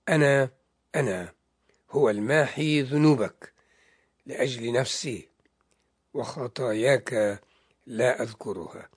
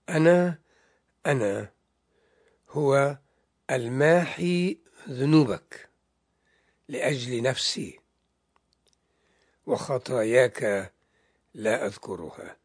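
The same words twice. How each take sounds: First: It is read at a normal speaking pace. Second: It is read slowly and deliberately.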